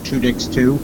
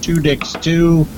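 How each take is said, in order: First: Said in the usual way. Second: "Two Dicks Two" said slower and higher, each word spaced out; slow emphatic repeat. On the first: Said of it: "Two Dicks Two, ask us a question". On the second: Shown as a demonstration. Host repeating the page name for listeners, slow and emphatic. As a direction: drive home "Two Dicks Two", slowly, word by word. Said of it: "Two Dicks Two, if you're interested".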